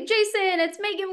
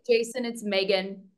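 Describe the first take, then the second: First: The voice is pitched up, light and tentative. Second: The voice is low, slow and projected forward. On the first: The caller sounds shy and insecure. The speaker calls it wrong. "when someone speaks up, it's like the" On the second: The caller sounds confident about the message. The speaker calls it right. "that might sound incredibly slow"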